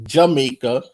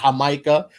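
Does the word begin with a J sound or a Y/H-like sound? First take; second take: J sound; Y/H sound. First: The word begins with an English J sound. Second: The word begins with a Y or H-like sound. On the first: It names a corporation. The speaker calls it wrong. "But you're calling it Jamaica, which is a corporation" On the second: It is the land's true name. The speaker calls it right. "with a Y or a H ... That's how it's actually pronounced"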